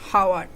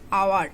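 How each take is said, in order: First: The word begins with an h sound. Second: The word begins with a vowel sound. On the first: The speaker calls it wrong. "not our" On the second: The speaker calls it right. "The pronounced is our"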